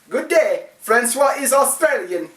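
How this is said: It is said in an Australian accent.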